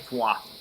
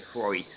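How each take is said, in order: First: It is said with a French pronunciation. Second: It is said with an English pronunciation. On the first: This is how a French speaker says it. "If you ask a Frenchman, they'll say" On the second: This is how British speakers say it. "If you ask us, we'll say"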